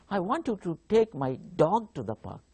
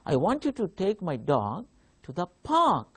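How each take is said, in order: First: The stress falls on the word dog. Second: The stress falls on the word park. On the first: The dog, not the cat, should go to the park. "if I give stress on dog" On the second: The park is where the dog should be taken. "if I give stress uh, to park, the word park"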